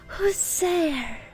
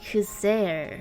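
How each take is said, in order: First: Said in a light, timid, childlike voice. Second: Said in a serious, confident, adult voice. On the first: "I was imagining, like" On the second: "Like, serious"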